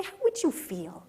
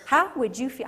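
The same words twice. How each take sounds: First: Slower, laughing as you ask; preacher chuckling at the congregation; laughing question. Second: Said in the usual way. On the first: Shown as a demonstration. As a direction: chuckle it out slowly. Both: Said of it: "Can you relate to this older boy".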